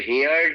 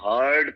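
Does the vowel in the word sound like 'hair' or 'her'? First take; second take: hair; her. First: The vowel sounds like the one in 'hair'. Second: The vowel sounds like the one in 'her'. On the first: The speaker calls it wrong. "इसको हेयर्ड नहीं pronounce करते हैं" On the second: The speaker calls it right. "हर्ड pronounce करते हैं"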